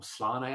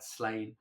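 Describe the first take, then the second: First: The name is said the nerdy, insider way. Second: The name is said the common, plain way.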